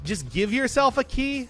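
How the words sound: It is said with only mild disdain. The speaker calls it wrong.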